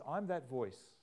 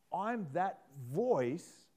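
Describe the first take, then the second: First: Said in the usual way. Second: "I'm that voice" drawn out very slowly, each word weighted; slow emphatic repeat. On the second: Shown as a demonstration. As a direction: lean on "I'm that voice" as a solemn slow claim.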